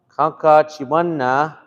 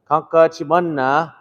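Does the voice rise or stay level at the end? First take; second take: rise; rise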